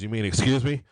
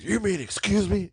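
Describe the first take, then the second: First: It is said mildly, without emphasis. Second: It is said with heavy, angry emphasis.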